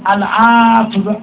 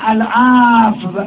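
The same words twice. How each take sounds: No difference in how they are said.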